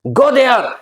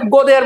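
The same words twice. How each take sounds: First: It is said with strong feeling, exclaimed. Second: It is said flatly, as a plain statement.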